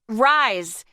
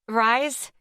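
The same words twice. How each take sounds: First: It sounds like an angry command. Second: It sounds like a questioning request.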